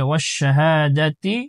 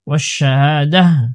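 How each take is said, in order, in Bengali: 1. শব্দটি 'ti' ধ্বনি দিয়ে শেষ হয়। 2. শব্দটি একটি নরম 'h' ধ্বনি দিয়ে শেষ হয়। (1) "যদি ওয়াকফ না করে আমি পরের আয়াতের সাথে মিলিয়ে পড়ি" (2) "এখানে যদি আমি ওয়াকফ করে দিই, তাহলে শেষের গুল তাটা হা হয়ে যাবে"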